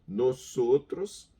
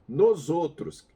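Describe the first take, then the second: First: The middle consonant is a voiceless S. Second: The middle consonant is voiced like a Z. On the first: The speaker calls it right. "O som sozinho do S vai ter o som para nós como se fosse um S dobrado" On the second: The speaker calls it wrong. "Não faz isso, não faz isso, é feio demais"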